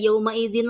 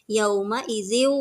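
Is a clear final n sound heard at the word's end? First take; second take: yes; no. First: The word ends with a clear n sound. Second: The final n merges into a w sound. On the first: The speaker calls it wrong. "tidak yauma izin lagi" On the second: The speaker calls it right. "tapi yauma idziw wahiyah"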